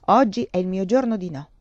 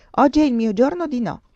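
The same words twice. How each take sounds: First: Lightly voiced husband, in the narrator's usual pitch; understated adult echo of the child's refusal; husband repeating. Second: Higher, louder, lightly voiced little boy; grave child. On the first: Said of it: "ripeté lui". (marito che ripete, tono adulto) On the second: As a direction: declare it with childish solemnity. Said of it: "fece Tioca gravemente". (solenne, da bambino) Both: A narrator's reading.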